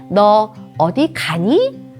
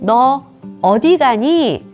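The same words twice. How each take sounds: First: The word 가니 carries the emphasis. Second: The word 어디 carries the emphasis. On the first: "하고 가니를 강조하는 것은" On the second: "하고 어디를 강조하는 것과"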